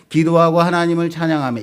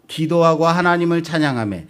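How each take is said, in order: No difference in how they are said.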